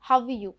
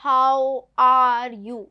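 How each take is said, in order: First: "How you?" quick, no r sound; r dropped. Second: "How are you?" very slow and loud, r stressed in are; wrong, r sounded. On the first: (बिना आर के "How you?") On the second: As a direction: drag out are with a hard r. ("are" को ज़ोर से, आर के साथ) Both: Shown as a demonstration. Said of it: "इस तरह नहीं बोलना है".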